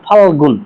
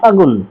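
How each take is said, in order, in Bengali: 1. পুরো শব্দটি তার l ধ্বনি সহ উচ্চারিত হয়। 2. শব্দটি ছোট করা হয় এবং l ধ্বনি লোপ পায়। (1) "ডিরেক্টলি বললাম ফাল্গুন" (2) "সংক্ষিপ্ত করার জন্য বললাম ফাগুন"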